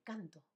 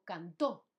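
First: Canto with the stress on CAN; "CAN-to", unstressed final o; stress on first syllable. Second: Cantó with the stress on the final ó; "can-TÓ", second syllable stressed. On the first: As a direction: say canto, falling away after the first syllable. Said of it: "no hay tilde". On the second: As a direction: say cantó, landing on the last syllable. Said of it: "está acentuado". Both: Shown as a demonstration.

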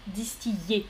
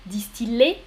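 First: Softer, lower distiller, "dis-ti-yé"; Y glide in distiller. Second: Distiller as "dis-ti-lé", rising. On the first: Teacher quizzes class, distiller with Y. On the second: Teacher quizzes class, distiller with L. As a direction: sound the L in distiller. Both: Shown as a demonstration. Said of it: "Donc, L ou Y".

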